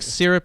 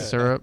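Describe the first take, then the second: First: The word is said in a standard accent. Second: The word is said in a Kansas accent. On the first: This is the pronunciation the speaker prefers. "is how I want to say it" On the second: This is how the speaker talked growing up. "my Kansas roots take over"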